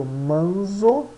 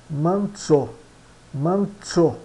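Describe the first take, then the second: First: MANZO with a buzzing Z, "man-zo"; read as spelt. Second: MANZO with TS, "MAN-tso"; falling manzo, Z turned to TS; Italian pronunciation. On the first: Teacher shows learners the written word, plain Z. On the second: Teacher models Italian, Z in manzo as TS. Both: Shown as a demonstration. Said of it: "Z é pronunciado como T S".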